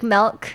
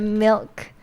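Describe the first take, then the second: First: The vowel is shifted the way some people say it. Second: The vowel is said the standard, unshifted way. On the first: "they say like milk instead of" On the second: "instead of milk"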